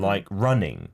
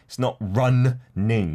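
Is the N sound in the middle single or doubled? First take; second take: single; doubled. First: The middle N is pronounced once. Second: The middle N is pronounced twice. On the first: The speaker calls it right. "we only really pronounce it once" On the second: The speaker calls it wrong. "It's not"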